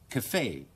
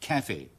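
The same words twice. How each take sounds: First: The stress is on the second syllable. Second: The stress is on the first syllable. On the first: "將個重音擺喺第二個音節嗰度" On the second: "英國人嘅習慣咧就將個重音擺喺第一個音節嗰度"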